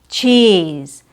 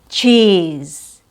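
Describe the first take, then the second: Both takes have the same delivery.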